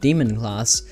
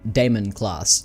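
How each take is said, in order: First: The first word sounds like 'demon'. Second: The first word sounds like 'Damon'. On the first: The speaker calls it wrong. "then I started pronouncing it Demon class" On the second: The speaker calls it right. "pronounced the same way that Matt Damon's name is pronounced"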